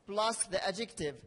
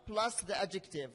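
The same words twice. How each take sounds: The two takes are said the same way.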